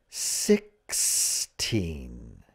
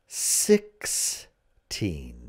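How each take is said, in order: No difference in how they are said.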